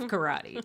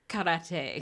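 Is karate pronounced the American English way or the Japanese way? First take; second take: American English; Japanese. First: It is given an American English pronunciation. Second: It is given a Japanese-style pronunciation. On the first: It follows everyday English usage. "as an American" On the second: It follows the word's original language. "I know how it's really pronounced"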